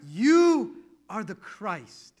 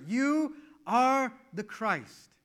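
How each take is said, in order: First: Slow, louder solemn declaration; slow proclamation. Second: Slow, higher solemn declaration; slow proclamation. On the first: Peter confessing to Jesus, slow and loud. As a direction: proclaim it slowly, in awe. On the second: Peter declaring to Jesus, slow and solemn. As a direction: draw it out in awe. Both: Retold or imitated.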